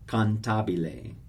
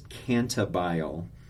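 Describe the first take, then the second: First: The word is said with four full syllables. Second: The word is said with fewer than four syllables. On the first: The speaker calls it right. "It's four syllables" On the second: The speaker calls it wrong. "Some people pronounce this cantabile. No, don't do that"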